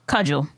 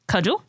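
First: The word is long and drawn out. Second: The word is said briefly.

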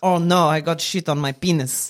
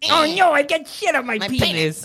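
First: It is said in an Eastern European accent. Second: It is said in a tough, squeaky rat voice. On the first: "I can do a nondescript Eastern European accent" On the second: "so it's squeaky"

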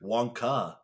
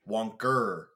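First: The word ends in a plain vowel sound. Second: The word ends with an R sound. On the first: The speaker calls it right. "How do you say it?" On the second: The speaker calls it wrong. "Like with an R"

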